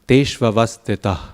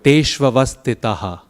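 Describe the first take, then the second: First: The final h is a soft breath, no vowel. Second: The final h is followed by an echoed vowel. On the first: "all you have to do is tesh vavastita. That's it" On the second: "people often echo it. Tesh vavastitaha, like I did"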